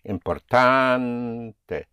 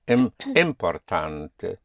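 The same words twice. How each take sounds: First: A single stress falls on the second-to-last syllable. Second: More than one syllable carries stress. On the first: The speaker calls it right. "that one single stress will be placed on the penultimate syllable" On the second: The speaker calls it wrong. "So you cannot say importante"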